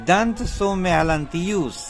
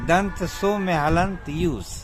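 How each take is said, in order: No difference in how they are said.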